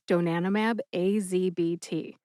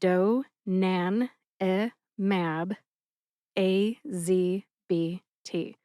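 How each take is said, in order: First: It is said at a normal, connected pace. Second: It is said slowly, syllable by syllable.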